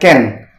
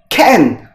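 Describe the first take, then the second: First: The first consonant is released softly without a burst. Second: The first consonant is released with a strong burst. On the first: The speaker calls it wrong. "bukan can" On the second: The speaker calls it right. "Huruf C di sini kita eksplosif ya. Jadi kayak can"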